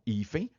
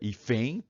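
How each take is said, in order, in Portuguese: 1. A tônica está na primeira sílaba. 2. A tônica está na última sílaba. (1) "Ficou diferente, tem acento" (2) "No hífen é o E"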